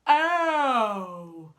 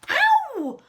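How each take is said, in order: First: The voice is big and deep. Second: The voice is light and not very deep. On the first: The speaker calls it right. "Should we try that again?" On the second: The speaker calls it wrong. "that wasn't a very big, deep voice, was it?"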